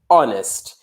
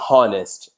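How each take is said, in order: First: The word begins with a vowel, h silent. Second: The word begins with an audible h sound. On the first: The speaker calls it right. "we don't pronounce it" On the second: The speaker calls it wrong. "we don't say honest"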